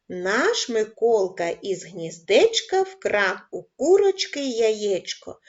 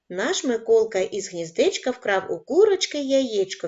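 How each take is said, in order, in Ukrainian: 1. Рядок читається трохи швидше. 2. Рядок читається найшвидшим темпом. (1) "Пришвидшуємо темп" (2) "Кожного разу будемо пришвидшувати темп"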